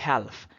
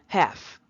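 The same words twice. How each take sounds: First: The L sound is pronounced in the word. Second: The L sound is silent in the word. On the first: The speaker calls it wrong. "Do not say half" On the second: The speaker calls it right. "Say half"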